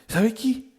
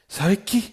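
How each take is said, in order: Both takes have the same delivery.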